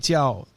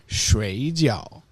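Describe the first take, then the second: First: It carries the tones of the word for sleep. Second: It carries the tones of the word for dumplings. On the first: To sleep. "is sleep" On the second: Boiled dumplings. "is boiled dumplings"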